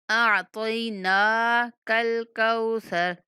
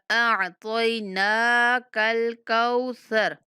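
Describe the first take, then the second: No difference in how they are said.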